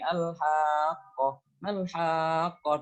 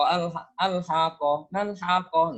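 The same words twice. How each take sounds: First: The vowels are drawn out long and slow. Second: The vowels are clipped short and quick. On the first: The speaker calls it right. "silakan dibaca seperti ini" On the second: The speaker calls it wrong. "itu kurang panjang"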